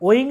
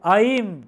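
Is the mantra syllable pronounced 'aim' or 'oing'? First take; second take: oing; aim. First: The syllable is pronounced like 'oing' with a nasal ending. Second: The syllable is pronounced like 'aim' ending in m. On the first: The speaker calls it wrong. "ওইং না" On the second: The speaker calls it right. "কিন্তু আইম, উচ্চারণটা ভালো করে শুনবেন"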